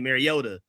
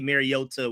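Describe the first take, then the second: First: The consonant before the last vowel sounds like D. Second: The consonant before the last vowel is a crisp T. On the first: "We just put an automatic D sound" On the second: "We don't say Mariota"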